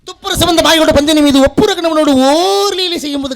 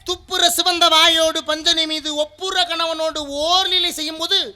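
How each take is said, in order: First: The line is recited at a fast pace. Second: The line is recited at a slow pace. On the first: The speaker calls it wrong. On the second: The speaker calls it right.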